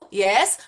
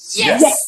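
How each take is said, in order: First: It is said casually, like answering a phone. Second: It is said loudly with a lot of power.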